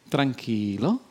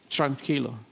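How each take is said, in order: First: It is said in a Puerto Rican accent. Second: It is said in a Costa Rican accent.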